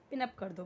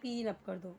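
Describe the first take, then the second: First: The vowel in pin is short. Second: The vowel in pin is long. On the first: The speaker calls it right. "बोलते ना पिन up कर दो" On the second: The speaker calls it wrong. "ऐसे नहीं बोलते"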